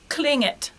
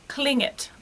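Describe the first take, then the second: The two takes are said the same way.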